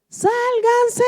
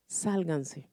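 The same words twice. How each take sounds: First: Much higher, louder panicked yell; frantic warning shout; retold shouting. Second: Soft, low, distant call; hushed unseen voice; quiet mysterious voice. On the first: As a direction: yell it as men fleeing an avalanche. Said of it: "venían todos gritando". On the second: Retold or imitated. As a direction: murmur it like a voice from nowhere. Mysterious voice heard while praying.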